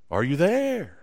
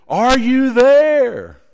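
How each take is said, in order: First: Softer echo coming back. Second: High, slow call across the mountains; boy calling out loud into the valley. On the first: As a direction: answer like a distant echo. Echo answers the boy. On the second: Boy calls to echo mountain. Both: Acted.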